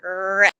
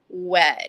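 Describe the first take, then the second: First: The first sound is a clear R sound. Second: The first sound is a rounded W-like sound. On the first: The speaker calls it right. "We want our lips to be retracted" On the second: The speaker calls it wrong. "they might be saying wed"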